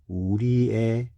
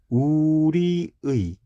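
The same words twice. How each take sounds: First: The last syllable has the vowel 'e'. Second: The last syllable has the vowel 'ui'. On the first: "조사의니까 우리의 자랑 해도 괜찮아" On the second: "우리의 라고 발음해야 하는데"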